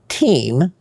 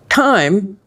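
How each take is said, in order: First: The vowel sounds like 'ee'. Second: The vowel sounds like 'eye'. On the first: It means honor or price. "if I pronounce it with a long E" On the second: It does not mean anything. "as is"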